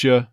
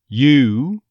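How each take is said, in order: First: The word is reduced to an unstressed 'ya'. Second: The word is stressed with a full 'oo' vowel. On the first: "or very possibly" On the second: "if you stress it with that on glide"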